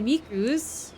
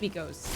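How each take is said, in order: First: The name ends with an 'oo' vowel. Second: The name ends with an 'oh' vowel. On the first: The speaker calls it wrong. "not Miku's. Miku's with a U" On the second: The speaker calls it right. "Miko's, not Miku's"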